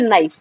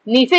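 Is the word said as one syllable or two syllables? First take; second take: one syllable; two syllables. First: The word is said in one syllable, like knife. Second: The word is said in two syllables, nee-fay. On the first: The speaker calls it right. "नाइफ ज्यादा better है" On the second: The speaker calls it wrong. "नीफे या फिर नाइफ"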